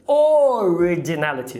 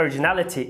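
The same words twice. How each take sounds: First: Originality with a full clear o, the wrong way. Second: Originality with the first o reduced to a schwa. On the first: Teacher showing the wrong originality with a full o. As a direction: say originality with a full o to show the error. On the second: Teacher modeling originality with a reduced o. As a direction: start originality with a weak schwa. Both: Shown as a demonstration. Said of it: "e não originality".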